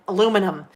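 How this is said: The word is said with four syllables. "we call it aluminum foil"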